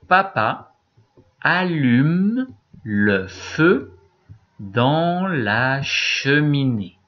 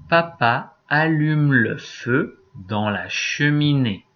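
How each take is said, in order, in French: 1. La phrase est lue plus lentement. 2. La phrase est lue plus vite. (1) "Moi d'abord" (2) "je vais le relire un peu plus vite"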